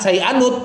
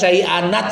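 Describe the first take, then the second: First: The n is followed by a u vowel. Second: The n is followed by an a vowel.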